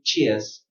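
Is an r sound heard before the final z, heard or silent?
silent. No r sound is heard before the z. "Or in British pronunciation"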